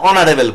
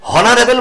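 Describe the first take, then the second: First: The word begins with a vowel sound. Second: The word begins with an h sound. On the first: The speaker calls it right. "অনারেবল বলি" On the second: The speaker calls it wrong. "হ হনারেবল বলি না"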